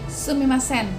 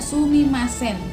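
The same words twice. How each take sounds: First: Said faster, with the u sound barely audible. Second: The u sound is fully pronounced at normal speed. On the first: "lebih cepat, jadi u-nya itu tidak terlalu terdengar" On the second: "pengucapan sumimasen itu sendiri kita tahu ya"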